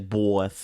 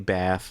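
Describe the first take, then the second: First: The vowel is a drawn-out 'aw' sound. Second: The vowel is a plain flat 'a' sound. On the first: It is how others think the speaker talks. The speaker calls it wrong. "I don't say bath" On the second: It is how the speaker really talks. The speaker calls it right. "but say bath"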